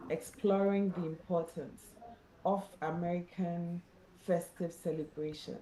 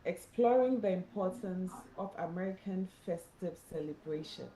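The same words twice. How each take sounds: The two takes are said the same way.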